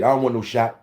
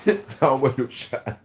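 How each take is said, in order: First: Said in the usual way. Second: Slow, chuckling put-on take; laughing mock repeat. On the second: Repeating his own line to viewers, slow and laughing. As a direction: laugh through it like a joke.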